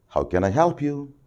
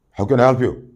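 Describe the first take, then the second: First: Gentle helpful question; polite offer of help; soft and polite. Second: Louder, menacing question; same question made to sound threatening; harsh and threatening. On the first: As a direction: ask it softly, like a kind clerk. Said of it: "Very soft, very polite". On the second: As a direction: bark it like a threat. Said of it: "It means, "I'm, I'm going to come and kill you". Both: Shown as a demonstration.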